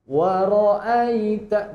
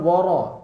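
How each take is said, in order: First: The vowel after the r sounds like 'a'. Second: The vowel after the r sounds like 'o'. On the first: The speaker calls it right. "Wara'aita bukan waro" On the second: The speaker calls it wrong. "Tadi ada yang membaca waro, enggak boleh"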